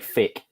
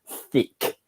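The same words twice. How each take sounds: First: The word begins with an f-like sound. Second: The word begins with a carefully pronounced th. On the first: The speaker calls it wrong. "otherwise I say thick. It's like what the hell's thick?" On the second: The speaker calls it right. "I go thick because I have to pronounce the th"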